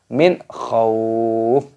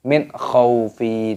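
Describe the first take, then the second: First: The word ends on a silent f. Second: The word ends with an added i vowel. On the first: The speaker calls it right. "dimatikan dibaca min khauf" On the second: The speaker calls it wrong. "bukan min khaufi"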